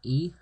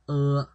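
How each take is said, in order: First: It sounds like the English letter name E. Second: It sounds like a neutral 'uh' vowel. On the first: The speaker calls it wrong. "it's not E" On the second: The speaker calls it right. "it's pronounced as uh"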